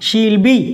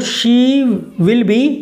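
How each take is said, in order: First: She will is shortened into one syllable. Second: She will is said as two full words.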